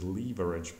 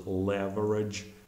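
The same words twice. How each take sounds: First: It is said with a British accent. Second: It is said with an American accent. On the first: "I think British is leverage" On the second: "it's pronounced as leverage in American English"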